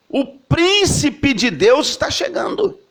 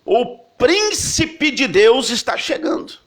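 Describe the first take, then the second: First: Even higher, slow, ringing announcement; higher herald's proclamation. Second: Higher, slow, ringing announcement; herald's proclamation. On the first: Preacher voicing the crowd announcing the prince of God, higher still. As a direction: call it out again, climbing. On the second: Preacher voicing the crowd announcing the prince of God, slow and high. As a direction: call it out like a royal herald. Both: Retold or imitated.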